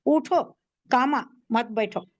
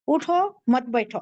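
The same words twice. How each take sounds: First: उठो said on its own, then a pause before कामा मत बैठो; pause after उठो. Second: Said in the usual way. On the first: Shown as a demonstration. Teacher showing how a comma after उठो changes the meaning. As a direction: break the phrase right after उठो. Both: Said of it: "अब यहाँ punctuation क्या करना है?".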